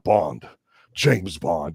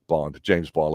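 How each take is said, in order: First: The line is delivered grandly and dramatically. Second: The line is delivered flatly and offhandedly. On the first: The name is presented as impressive. "not Bond, James Bond" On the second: The name is presented as no big deal. "like big fucking deal"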